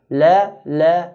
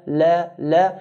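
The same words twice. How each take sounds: Both takes have the same delivery.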